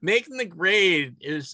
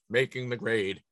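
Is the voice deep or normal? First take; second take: normal; deep. First: It is said in his normal voice. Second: It is said in a deep radio voice.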